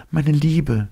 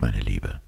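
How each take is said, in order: First: "meine Liebe" spoken high and tender, falling at the end; young woman's voice. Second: "meine Liebe" spoken lower and soft, reassuring; "meine Liebe" low and gentle; calm man's voice. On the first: Elita voiced by narrator. ("meine Liebe" hoch und zärtlich, fallend gesprochen) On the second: Lossi voiced by narrator. ("meine Liebe" tiefer und sanft gesprochen) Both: Acted.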